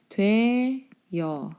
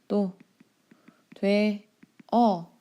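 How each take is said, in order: First: A y-glide is added before the final vowel. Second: The final vowel is a plain single vowel. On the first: "이렇게 이중모음으로 바뀌는" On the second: "단모음 그냥 단모음으로 발음하면 되죠"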